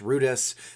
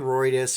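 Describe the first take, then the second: First: The first syllable is said like French 'rue'. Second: The first syllable is not said like 'rue'.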